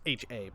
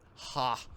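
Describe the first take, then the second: First: It is spelled out as two separate letters. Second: It is said as a single syllable word. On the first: The speaker calls it right. "It's probably pronounced H A" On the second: The speaker calls it wrong. "I don't think it's pronounced that way"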